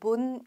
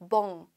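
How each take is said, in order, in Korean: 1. 분명하고 확실한 n 소리로 끝나요. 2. 명확한 n 없이 비음 모음으로 끝나요. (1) "이거는 본 아니고요" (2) "멍이에요"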